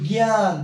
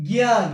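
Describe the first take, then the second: First: জ্ঞান said as gyan; জ্ঞান উচ্চারণ; example word. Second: জ্ঞান punched louder as gyan; জোরে জ্ঞান; emphatic answer. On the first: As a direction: present জ্ঞান clearly. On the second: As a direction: answer your own question firmly with জ্ঞান. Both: Shown as a demonstration. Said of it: "আমি কি বলি".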